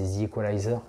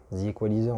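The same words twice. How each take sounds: First: The Equalizer with an English-style long "eye" in Equalizer; English accent. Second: The Equalizer the French way, "ee" in Equalizer; French accent. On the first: French vlogger naming a favourite film, English accent. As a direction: say The Equalizer in a slight American accent. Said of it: "mon accent un peu anglais". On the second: Vlogger showing how French people name the film, French accent. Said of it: "en français on dirait plus". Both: Shown as a demonstration.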